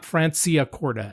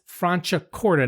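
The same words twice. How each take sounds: First: The c before i sounds like s. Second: The c before i sounds like ch. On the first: The speaker calls it wrong. "not Franciacorta" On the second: The speaker calls it right. "it's Franciacorta"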